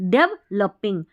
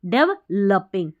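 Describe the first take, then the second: Both takes have the same delivery.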